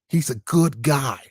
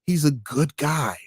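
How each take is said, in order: First: Slow, lower mocking voice; understated sarcastic repeat; mock Biden supporter again. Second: Slow, lower mocking voice; a hint of a sarcastic fan; mock Biden supporter. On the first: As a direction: stretch it out sarcastically. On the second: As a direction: parody a Biden fan, dragged out. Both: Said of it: "I like Joe Biden".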